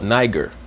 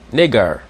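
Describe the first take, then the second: First: The first vowel sounds like 'eye'. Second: The first vowel sounds like 'ee'. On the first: This is the usual English reading of the name. The speaker calls it wrong. "many times we mispronounce that word as quote unquote Niger" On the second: This is the claimed Latin reading of the name. The speaker calls it right. "the I will be pronounced like an E sound and the E will be pronounced like an A sound"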